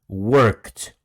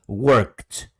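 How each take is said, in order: The two takes are said the same way.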